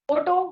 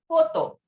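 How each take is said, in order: First: The word is pronounced the English way. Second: The word is pronounced the French way. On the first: "Photo we call in English" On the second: "In French it is photo"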